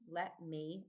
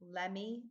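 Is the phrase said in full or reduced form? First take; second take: full; reduced. First: Each word is said separately and fully. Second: The words blend together into one reduced word. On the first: The speaker calls it right. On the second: The speaker calls it wrong.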